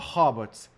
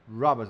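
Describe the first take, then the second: First: The word begins with an H sound. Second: The word begins with an R sound. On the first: The speaker calls it wrong. "not hobots" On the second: The speaker calls it right. "letter R are robots"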